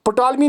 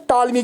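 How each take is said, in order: First: पटालमी with the p sounded; wrong pronunciation. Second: टालमी with a silent p; correct pronunciation. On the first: Teacher shows students the wrong form. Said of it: "नहीं कहते हैं". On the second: Teacher shows students the right form. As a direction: drop the p, say टालमी. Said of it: "पी silent रहे". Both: Shown as a demonstration.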